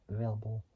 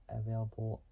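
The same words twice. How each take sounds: No difference in how they are said.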